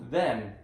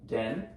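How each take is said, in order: First: The word begins with a soft th sound. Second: The word begins with a hard d sound. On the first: The speaker calls it right. "T H says then" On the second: The speaker calls it wrong. "She's saying D E N"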